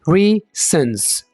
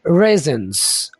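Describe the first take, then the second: First: The first vowel is an 'ee' sound. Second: The first vowel is an 'ay' sound. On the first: The speaker calls it wrong. "आप ऐसे नहीं बोलेंगे ... गलत होगा ये" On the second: The speaker calls it right. "अब कैसे बोलेंगे?"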